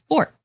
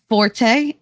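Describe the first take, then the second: First: The word is said with one syllable. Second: The word is said with two syllables. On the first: The speaker calls it right. "It's fort" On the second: The speaker calls it wrong. "is not forte"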